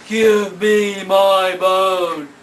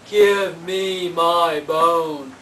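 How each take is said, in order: First: It is said loudly. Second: It is said quietly.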